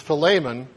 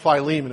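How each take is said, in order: First: The name sounds like the dish filet mignon. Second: The name does not sound like filet mignon. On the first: "the actual pronunciation of his name is Philemon, but that sounds like something I would order medium rare" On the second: "So I'm going to call him Philemon"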